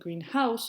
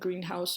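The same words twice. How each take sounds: First: The stress falls on the word house. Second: The stress falls on the word green. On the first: A house that is painted green. "Phrases are typically more emphasized on the second word" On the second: A building for growing plants. "Compounds are typically characterized by an emphasis on the first word"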